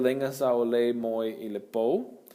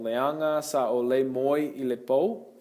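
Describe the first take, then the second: First: The first word's vowels run together. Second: The first word keeps all its syllables.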